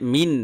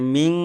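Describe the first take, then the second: First: The final n is pronounced as a clear n. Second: The final n is hidden in a nasal hum. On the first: The speaker calls it wrong. "মিন না" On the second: The speaker calls it right. "এখানে মিং এরকম হবে"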